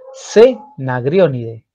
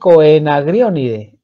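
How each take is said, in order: First: No O sound is heard before the E. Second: An O sound is heard before the E. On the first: "quitando la O" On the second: "si no tendrían que decir Coenagrionidae. Y está bien"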